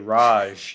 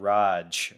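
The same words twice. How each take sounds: First: The J is a soft zh sound. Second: The J is a hard j sound. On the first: The speaker calls it wrong. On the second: The speaker calls it right.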